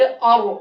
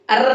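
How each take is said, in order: First: The r is said heavy and full. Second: The r is said light and thin. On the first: The speaker calls it right. "आरो मोटा करके" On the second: The speaker calls it wrong. "अर्र नहीं पढ़ेंगे"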